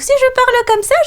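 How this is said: It is a very high, little-girl voice.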